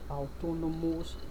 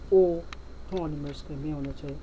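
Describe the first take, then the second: First: The first vowel is not an O sound. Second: The first vowel is an O sound. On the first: The speaker calls it wrong. "not autonomous" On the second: The speaker calls it right. "A U is pronounced O"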